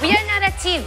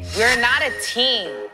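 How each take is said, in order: First: It is said in a light, cute tone. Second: It is said in a harsh, furious tone. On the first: It is a playful remark about competing. "이거는 되게 like 귀여운 거고" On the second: The speaker was truly enraged at the time. "그때는 진짜 너무 화가 나가지고"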